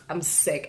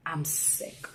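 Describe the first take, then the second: First: Said in the usual way. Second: Breathy, much softer whisper of disgust; sick whisper. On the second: Real, not acted. Vlogger after retelling the threat, whispered disgust. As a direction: barely voice it, drained.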